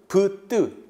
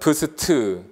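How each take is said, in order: First: A b is followed directly by tensed t. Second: An s sound is spoken between b and t. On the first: The cluster is read as b plus a tensed consonant. "비읍과 뒤에 된소리 그러면" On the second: The cluster is read as three separate consonants. "이렇게 세 음으로 보는 견해도 있고"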